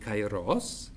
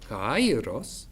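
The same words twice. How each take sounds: First: The pitch rises at the end of the word. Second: The pitch rises and falls on the first syllable. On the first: It means the right occasion. "The first word has an upwards tune at the end" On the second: It means the knot where threads of a web meet. "a circumflex, an up and down movement on the first syllable"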